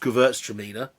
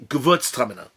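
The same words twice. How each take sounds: First: The name is said with an English pronunciation. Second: The name is said with a German pronunciation. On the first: "the way the English do it" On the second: "which is how the Germans pronounce it"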